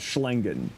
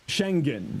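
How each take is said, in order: First: The word starts with 'sh' followed by 'l'. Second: The word starts with a plain 'sh' sound. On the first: The speaker calls it wrong. "not Schlengen" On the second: The speaker calls it right. "Schengen, not Schlengen"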